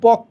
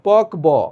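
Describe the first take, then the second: First: The b is dropped and the k is doubled. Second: The b sound is pronounced after the k. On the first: The speaker calls it right. "ক দুইবার হয়েছে" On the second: The speaker calls it wrong. "পক ব হওয়ার কথা"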